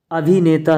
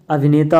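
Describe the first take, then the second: First: अभिनेता with a stretched "bhee"; long ee. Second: अभिनेता with a quick "bhi"; short i. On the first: Teacher showing the wrong form, long ee in अभिनेता. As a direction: say अभिनेता as "abheeneta". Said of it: "अभिनेता होता है". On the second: Teacher giving the correct form, short i in अभिनेता. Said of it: "होता है". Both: Shown as a demonstration.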